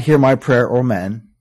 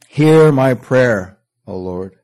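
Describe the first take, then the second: First: Said in the usual way. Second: Hear drawn out very slowly and louder; slow and weighty. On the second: Acted. Preacher reciting the psalm's opening to the congregation, slow and weighty. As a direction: stretch Hear my prayer slowly.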